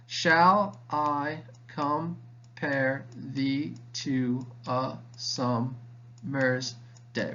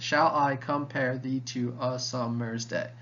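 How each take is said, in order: First: Very slow, each syllable separated. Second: Slow, evenly measured line; measured recitation. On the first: Teacher counting out ten syllables for students, syllable by syllable. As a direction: spell out the line in evenly spaced syllables. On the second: Teacher repeating the sonnet line for students, measured recitation. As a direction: recite it steadily, syllables lightly separated. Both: Shown as a demonstration.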